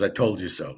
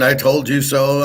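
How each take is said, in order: First: Much softer, lower, dismissive "I told you so"; sneering smart ass. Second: Mock the know-it-all gloating "I told you so"; smug mock told-you-so. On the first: Retold or imitated. Imitating the smart ass nobody likes, quiet sneer. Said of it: "the smart ass who says". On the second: Mocking YouTubers who gloat about the warning. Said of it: "these idiots".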